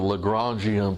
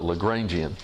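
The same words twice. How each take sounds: First: The name is pronounced with a French sound. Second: The name is pronounced with an English sound. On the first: It follows the original owner's pronunciation. The speaker calls it wrong. "it sounds fakey and weird" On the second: It is treated as an ordinary English word. The speaker calls it right. "now that that's an English word"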